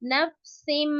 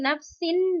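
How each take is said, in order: First: The word ends with an m sound. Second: The word ends with a plain n sound. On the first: The speaker calls it right. "नफसिम बीमा" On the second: The speaker calls it wrong. "नफसिन नहीं पढ़ेंगे"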